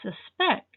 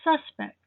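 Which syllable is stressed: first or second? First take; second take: second; first. First: The stress is on the second syllable. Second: The stress is on the first syllable. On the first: It is the verb meaning to think something true. "with the stress on the second syllable" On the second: It names a person who might be guilty. "The stress is on the first syllable"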